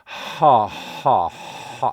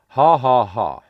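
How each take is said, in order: First: The h carries a large burst of breath. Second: The h is light with little breath. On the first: The speaker calls it wrong. "It's not this massive amount of breath" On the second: The speaker calls it right. "as if you were saying ha ha ha. Very funny"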